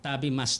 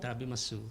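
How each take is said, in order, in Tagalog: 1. Nawawala ang huling tunog na u. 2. Binibigkas ang huling tunog na u. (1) "actually sa Japan, Tabimas talaga siya" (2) "since Pinoy, pinopronounce talaga yung U"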